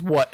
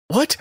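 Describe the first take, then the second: First: "What" with a falling tune; serious "What". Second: "What" with a rising, puzzled tune; confused "What". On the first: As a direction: say "What" seriously, letting it drop. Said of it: "she gets this serious face". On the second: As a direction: ask "What" in bewilderment, ending upward. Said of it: "the confusion". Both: Retold or imitated.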